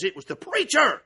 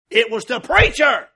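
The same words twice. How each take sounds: First: Said in the usual way. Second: "preacher" said slow and much louder, falling hard; stressed repeat. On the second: Real, not acted. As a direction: lean on "preacher", drawing it out.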